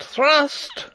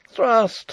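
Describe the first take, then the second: First: Very high, loud cry ending on a rise; rising cry. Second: High, loud battle cry with a falling end. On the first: Rupert urging his men on again, higher rising cry. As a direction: push the word up even higher. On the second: Rupert urging his men on in the fight, loud cry. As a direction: bark the order in the fight. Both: Acted. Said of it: "cried Rupert again".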